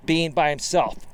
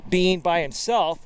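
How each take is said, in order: Both takes have the same delivery.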